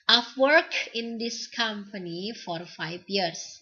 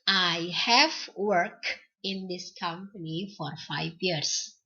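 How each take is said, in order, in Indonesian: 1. Have disingkat menyatu dengan kata ganti. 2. Have diucapkan penuh sebagai kata terpisah.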